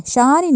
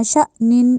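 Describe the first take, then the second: First: شانین said without the glottal catch; wrong way. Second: شأنین with a glottal catch on the hamza; correct hamza. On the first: Teacher showing the wrong Quran reading. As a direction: say شانین with a smooth long aa, no hamza break. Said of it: "شانین نہیں کہنا". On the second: Teacher showing the correct tajweed reading. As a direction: break the vowel sharply in شأنین. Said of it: "اس طرح پڑھا جائے گا". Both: Shown as a demonstration.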